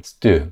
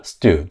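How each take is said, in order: First: Stew with a tense, hard st sound; tensed st. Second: Stew said first with a loose s; wrong then right stew. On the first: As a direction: say stew with a fortis st. (된소리 stew) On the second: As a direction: contrast stew with a hard tensed st. (stew를 된소리로) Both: Shown as a demonstration. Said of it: "stew가 아니라 stew".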